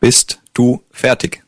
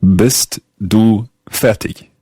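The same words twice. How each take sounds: First: "Bist du fertig?" said slowly, German "fertig" with a hard k ending; slow, careful native model of "Bist du fertig?"; teacher models "Bist du fertig?" slowly in German. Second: Very slow English-speaker German, "Bist du fertig?" with an English r in fertig; careful, halting English-accented German; slow English-accented German repeating "Bist du fertig?"; learner's German accent. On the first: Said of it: "Let's hear the question one more time". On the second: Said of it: "in my rather bad German accent". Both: Shown as a demonstration.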